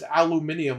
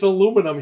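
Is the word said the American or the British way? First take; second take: British; American. First: Five syllables, ending in 'nium'. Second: Four syllables, ending in 'num'. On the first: "but it's aluminium over there" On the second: "It's aluminum here"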